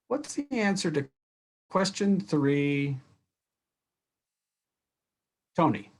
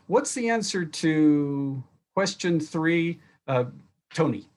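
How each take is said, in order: First: A pause of some seconds comes before the name. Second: The name follows the question with little pause. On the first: Everyone listens because anyone might be asked. The speaker calls it right. "Better way" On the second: The student is named without building suspense. The speaker calls it wrong. "Here's the usual way teachers will ask a question"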